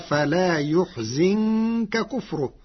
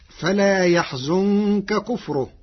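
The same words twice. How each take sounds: First: The verb begins with yu and has i after z. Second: The verb begins with ya and has u after z.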